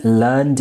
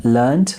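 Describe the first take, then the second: First: "learned" ending in a voiced d. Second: "learned" ending in a sharp t, as "learnt"; "learned" with a voiceless t at the end. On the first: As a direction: say "learned" as one syllable, "lurnd". Regular form, then irregular alternative. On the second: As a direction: say "learned" as "lurnt". Irregular alternative after or. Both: Shown as a demonstration.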